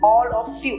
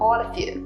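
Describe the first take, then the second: First: Each word is said fully and separately. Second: The words are reduced and linked together. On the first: The speaker calls it wrong. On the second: The speaker calls it right.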